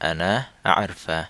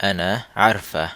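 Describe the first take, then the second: Both takes have the same delivery.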